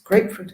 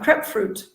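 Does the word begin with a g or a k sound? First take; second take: g sound; k sound. First: It starts with a g sound, long ay vowel. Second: It starts with a k sound, short eh vowel. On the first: The speaker calls it right. "hammer the point. It's grapefruit" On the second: The speaker calls it wrong. "people tend to make the the g tend to make it a k"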